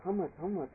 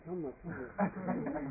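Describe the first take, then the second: First: Said in the usual way. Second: Slow, drawn-out, puzzled counting. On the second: Shown as a demonstration. Monk mocks counting rounds, slow and drawn out. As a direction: stretch each how much as if losing count.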